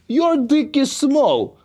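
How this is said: It is said in a Russian gangster voice.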